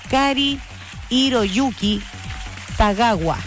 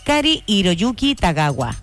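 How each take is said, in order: First: The name is said at a normal pace. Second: The name is said quickly.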